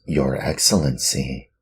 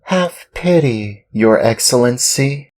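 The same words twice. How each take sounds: First: Said in the usual way. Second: Much higher, pleading Pinocchio; pleading puppet boy. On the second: Acted. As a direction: beg the master with rising pitch. Pinocchio begs.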